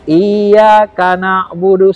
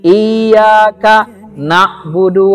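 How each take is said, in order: First: The two words run together without a break. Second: There is a clear break between the two words. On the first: The joined sounds form a forbidden name. The speaker calls it wrong. "Kita kan bacanya iyyaka na'budu, sering gitu kan?" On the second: Each word stands on its own. The speaker calls it right. "Seperti putus dia"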